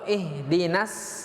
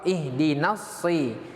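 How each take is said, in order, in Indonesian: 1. Huruf s adalah s biasa yang ringan. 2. Huruf s berat dan emfatik. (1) "itu huruf huruf sin" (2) "yang benar ya adalah huruf shad"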